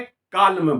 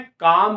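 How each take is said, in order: First: The l sound is pronounced in the word. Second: The l sound is left out of the word. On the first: The speaker calls it wrong. "न के काल में बोला" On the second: The speaker calls it right. "हमने काम बोला"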